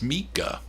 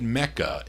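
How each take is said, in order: First: The first vowel sounds like 'ee', as in 'Mika'. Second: The first vowel sounds like 'eh', as in 'Mecca'. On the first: The speaker calls it right. "It's Mika" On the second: The speaker calls it wrong. "I said Mecca"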